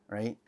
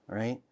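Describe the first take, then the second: No difference in how they are said.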